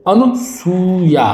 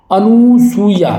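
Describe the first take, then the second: First: अनुसूया with short nu, then drawn-out soo-ya; correct pronunciation. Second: अनुसूया with long "noo", higher and slow; wrong pronunciation. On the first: Teacher correcting it, अनुसूया with short nu. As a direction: say अनुसूया as "anu... soo-yaa". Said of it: "छोटे ऊ की मात्रा लगेगी". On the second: Teacher showing the error, अनुसूया with stretched noo. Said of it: "ये बिल्कुल क्या है". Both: Shown as a demonstration.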